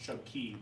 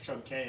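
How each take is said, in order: First: The last word sounds like the word key. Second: The last word sounds like the letter K. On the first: It is said the way locals say it. The speaker calls it right. "It's actually it's actually pronounced Chub Key" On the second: It is read the way it is spelled. The speaker calls it wrong. "this reads as Chub K"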